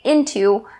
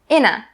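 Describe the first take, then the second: First: Both syllables are full, with a clear t. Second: The t is dropped, leaving a reduced ending. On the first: "you can say into, but this really slows you down" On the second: "for the very last way, you can say inna"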